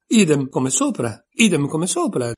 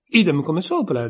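First: Idem come sopra shouted twice, louder; shouting. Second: Said in the usual way. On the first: A narrator's reading. Tweedledee mocking Alice, shouted repetition. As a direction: yell it to drown her out. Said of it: "gridò Tweedledee". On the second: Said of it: "disse Tweedledum".

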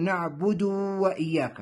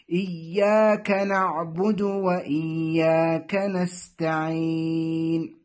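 First: "نعبد" ending in a long oo, na'budoo; over-lengthened damma. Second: "نعبد" with short final u in slow recitation; short final damma. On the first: Teacher shows the mistake, "نعبد" with long final oo. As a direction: stretch the vowel after dal in "نعبد" into waw. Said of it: "يشبع الضمة التي فوق الدال فتصبح واوا". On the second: Teacher gives the correct reading, "نعبد" with short final u. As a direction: recite slowly, keeping the last vowel of "نعبد" short. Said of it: "الصحيح". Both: Shown as a demonstration.

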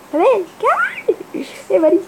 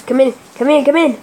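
First: Squeaky high call. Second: Said in the usual way. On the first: Real, not acted. Calling, voice jumps high.

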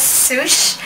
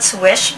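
First: "Swoosh" with a long oo vowel; brand pronounced Swoosh. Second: "Swish" with a short i vowel; brand pronounced Swish. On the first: Reviewer giving the brand's likely pronunciation, "Swoosh" with oo. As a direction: say "Swoosh", rhyming with whoosh. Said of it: "pronounce this as Swoosh". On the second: Reviewer preferring her own name for brushes, "Swish" with short i. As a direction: say "Swish", rhyming with fish. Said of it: "sounds really better if I call it". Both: Shown as a demonstration.

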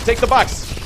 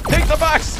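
First: Higher-pitched attacking call; combat taunt. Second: Much higher, strained battle cry; escalated taunt. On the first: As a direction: call it out at an enemy. First taunt while attacking. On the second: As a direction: push it up into a gleeful yell. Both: Pretend.

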